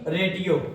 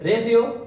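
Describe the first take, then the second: First: The middle consonant is pronounced as 't'. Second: The middle consonant is pronounced as 'sh'. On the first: The speaker calls it wrong. "ना कि ना कि रेटियो" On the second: The speaker calls it right. "इसको क्या बोलेंगे रेशियो"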